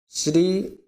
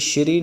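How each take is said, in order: First: The word begins with a plain 's' sound. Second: The word begins with an 'sh' sound. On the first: The speaker calls it right. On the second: The speaker calls it wrong.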